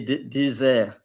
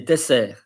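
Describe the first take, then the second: First: The middle consonant sounds like a Z. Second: The middle consonant sounds like an S. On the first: The speaker calls it wrong. "You don't say dessert" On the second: The speaker calls it right. "say the double S with S"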